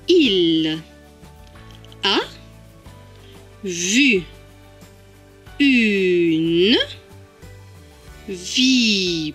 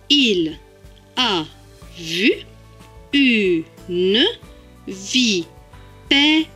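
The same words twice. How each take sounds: First: It is said slowly, word by word. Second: It is said quickly, words run together.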